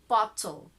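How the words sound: The T is pronounced clearly, British style. "make the very clear sound of T when you say it in British"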